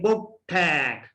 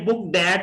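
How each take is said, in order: First: Booked ends with a t sound linked into at. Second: Booked ends with a d sound linked into at. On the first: The speaker calls it right. "ट जो है ठ में change होगा" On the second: The speaker calls it wrong. "बुक डैट नहीं है"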